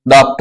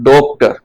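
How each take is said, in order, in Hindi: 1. पहला स्वर खुली 'aa' ध्वनि है। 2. पहला स्वर गोल 'o' ध्वनि है। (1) "तो हम ये आ की ध्वनि लिख दी" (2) "और ये वाली ओ की ध्वनि है"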